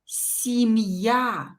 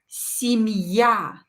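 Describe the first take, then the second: Both takes have the same delivery.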